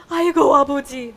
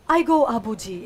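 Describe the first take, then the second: First: Loud, quick dramatic "아이고"; exclaimed lament. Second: Said in the usual way. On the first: Shown as a demonstration. Showing how they say oh my God father, dramatic exclamation. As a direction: cry out "아이고" loudly, falling on "아버지". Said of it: "This is how they say it". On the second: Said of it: "So it's".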